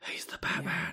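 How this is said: It is said in a put-on, whispery voice. The speaker calls it right. "it's more whispery now"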